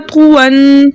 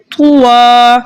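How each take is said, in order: First: "तुवन" chanted with a held nasal n; tanween ending. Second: "तुवा" with the n dropped and the final aa held; pausal long-a ending. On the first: Teacher shows the form we read first, "तुवन" ending on a held n. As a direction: hum out the final n of "तुवन". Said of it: "हमने पढ़ा तुवन". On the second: Teacher shows the stopped form, "तुवा" ending on a long open aa. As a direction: stretch the last vowel of "तुवा", no n. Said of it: "अलिफ मद्दा से बदल गई". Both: Shown as a demonstration.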